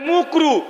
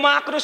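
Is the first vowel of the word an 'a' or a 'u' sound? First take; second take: u; a. First: The first vowel is a rounded 'u' sound. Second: The first vowel is an open 'a' sound. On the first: The speaker calls it wrong. "বলে মুকরু" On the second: The speaker calls it right. "মাকরু শব্দটা ঠিক করে বলে না"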